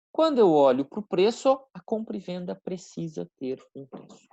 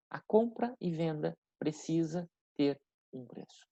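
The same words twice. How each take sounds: First: Said in the usual way. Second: Deliberate repetition. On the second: Shown as a demonstration. Key point repeated slowly for students.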